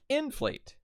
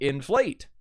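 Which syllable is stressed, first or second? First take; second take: first; second. First: The stress is on the first syllable. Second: The stress is on the second syllable. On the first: The speaker calls it wrong. "because then it would sound like inflate" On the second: The speaker calls it right. "the stress is on flate instead of in"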